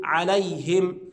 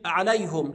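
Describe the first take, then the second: First: عليهم said as عليهِم with I; kasra on ha. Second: عليهم said as عليهُم with U; wrong damma on ha. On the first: Teacher giving the Hafs reading. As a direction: say -him. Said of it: "نقول". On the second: Teacher imitating the Hamza reading. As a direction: say -hum. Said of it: "ما ينفعش حد يجي يقول". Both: Shown as a demonstration.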